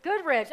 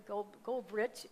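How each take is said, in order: First: Bright, loud correction "Goodrich", stressed GOOD; corrected name. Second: "Goldrich" said slowly with an L, Gold-rich; hesitant "Gold, Goldrich" with the L sounded; mispronounced name. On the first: Pastor fixing the singer's name, loud high "[name]". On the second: Pastor stumbling over the singer's name, slow "[name]" with the L. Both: Real, not acted. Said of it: "Where am I messing your name?".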